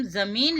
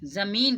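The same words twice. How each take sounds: First: ज़मीन said with a hard j, "jameen"; j in place of z. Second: ज़मीन said with a buzzed z, "zameen"; z with nukta. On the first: Teacher showing what not to say, ज़मीन as "jameen" with a j. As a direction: say ज़मीन without the nukta, as "jameen". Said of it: "इसको ज़मीन नहीं कहते हैं". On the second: Teacher giving pupils the nukta sound, ज़मीन as "zameen" with a z. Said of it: "कहते हैं". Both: Shown as a demonstration.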